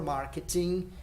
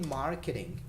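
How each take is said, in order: First: It is said with a Brazilian Portuguese pronunciation. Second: It is said with an English pronunciation.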